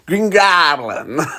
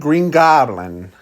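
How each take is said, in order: First: It is said in a put-on character voice. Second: It is said in a natural speaking voice.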